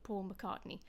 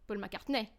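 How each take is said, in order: First: The stress falls on the usual syllable. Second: The stress falls on an unusual syllable. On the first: The name is easily recognized. The speaker calls it right. "the name Paul McCartney" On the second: The name is hard for English listeners to recognize. The speaker calls it wrong. "a shift in stress"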